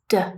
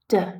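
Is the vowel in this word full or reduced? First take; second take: reduced; reduced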